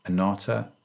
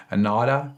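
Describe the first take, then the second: First: Said in the usual way. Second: American accent. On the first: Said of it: "is what I would say". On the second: Shown as a demonstration. Host tries the guest's company name in an American accent. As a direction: say Anatta like an American. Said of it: "do it with an American accent".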